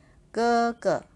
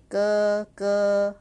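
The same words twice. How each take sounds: First: "哥哥" with a light second syllable; second "ge" short and unstressed; neutral tone gege. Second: "哥哥" with both syllables at full tone; second "ge" stressed as strongly as the first; wrong tone gege. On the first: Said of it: "but you say". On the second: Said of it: "You don't say". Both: Shown as a demonstration.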